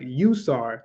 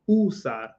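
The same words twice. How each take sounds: First: The first vowel sounds like 'you'. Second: The first vowel sounds like 'ooh'. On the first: The speaker calls it wrong. "saying you instead of saying ooh" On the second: The speaker calls it right. "instead of saying usar"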